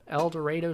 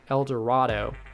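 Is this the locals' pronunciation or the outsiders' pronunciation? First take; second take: locals'; outsiders'. First: It uses the pronunciation the town's residents use. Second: It uses a pronunciation the town's residents dislike. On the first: The speaker calls it right. "Trust me, I pronounced that right" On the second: The speaker calls it wrong. "Residents do not like it when you pronounce it like El Dorado"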